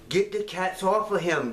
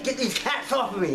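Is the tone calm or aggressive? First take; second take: calm; aggressive. First: It is said calmly. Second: It is said aggressively.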